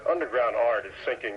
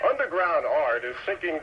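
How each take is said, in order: First: It is read flatly, with little energy. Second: It is read with exaggerated, excessive energy.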